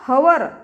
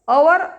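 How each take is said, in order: First: The word starts with an audible h sound. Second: The word starts directly with a vowel sound. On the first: The speaker calls it wrong. "हवर असं न read करता" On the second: The speaker calls it right. "तिथे अवर असा उच्चार घ्यावा लागेल"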